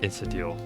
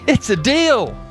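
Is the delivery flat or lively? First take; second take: flat; lively. First: It is said flatly, with little energy. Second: It is said with lively, energetic pizzazz. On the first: The speaker calls it wrong. "I hear myself saying" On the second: The speaker calls it right. "where's the pizzazz? ... you need to say"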